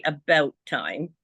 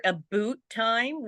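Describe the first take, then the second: First: "about time" with a raised ow, not oo; Canadian "about". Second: "a boot time" with a long oo; misheard Canadian "about". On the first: Shown as a demonstration. Correcting what Americans hear, Canadian pronunciation of about. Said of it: "we say about time". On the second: Retold or imitated. Showing what Americans hear, exaggerated oo in about. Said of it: "They hear a boot time".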